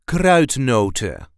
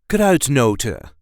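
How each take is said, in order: Both takes have the same delivery.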